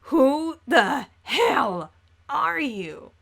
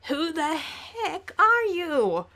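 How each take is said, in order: First: It is said in a Caliborn impression. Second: It is said in a Calliope impression.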